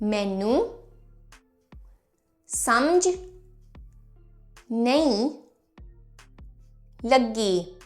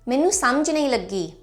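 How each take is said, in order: First: It is said slowly and carefully. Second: It is said at a natural conversational pace.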